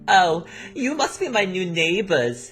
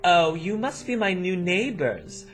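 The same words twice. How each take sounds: First: It is said in the Madison accent. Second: It is said in a plain voice.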